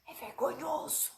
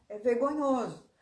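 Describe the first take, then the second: First: Hushed, confiding undertone; speaking low. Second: Said in the usual way. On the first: Pretend. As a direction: drop the voice to share a secret. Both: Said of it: "Mas eu vou falar baixo".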